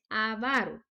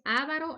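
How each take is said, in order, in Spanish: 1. El acento está en la segunda sílaba. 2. El acento está en la primera sílaba. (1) "la pronunciación correcta es avaro" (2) "cometemos el error de pronunciarlo mal. No es avaro"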